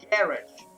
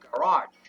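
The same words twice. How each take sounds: First: The stress is on the first syllable. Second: The stress is on the second syllable. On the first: It follows the usual English stress rule. The speaker calls it wrong. "seguindo essa lógica, essa palavra teria que ser, seria, seria lida como garage" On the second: It keeps the stress of its French origin. The speaker calls it right. "a pronúncia correta, correta dela é garage"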